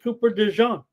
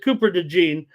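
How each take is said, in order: First: The surname has a French-style pronunciation. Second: The surname has a plain American pronunciation. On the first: "enunciate it like you're French" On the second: "I say, you know, DeGene"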